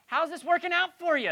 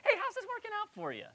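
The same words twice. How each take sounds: First: Pointed, higher and louder; a higher, louder sarcastic dig; cultural jab. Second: Much higher, sing-song mock friendly; a sweet-sounding jab with a bite; cruel friendly jab. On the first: Retold or imitated. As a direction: needle them with it. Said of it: "is how we say it in our culture". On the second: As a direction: fake friendliness with a sting. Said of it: "in a kind of a cruel, friendly way".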